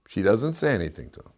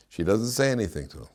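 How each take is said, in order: Both takes have the same delivery.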